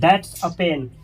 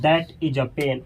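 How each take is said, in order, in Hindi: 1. 'that' और 'is' मिलकर 'that's' बन जाते हैं। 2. 'that' और 'is' अलग-अलग बोले जाते हैं।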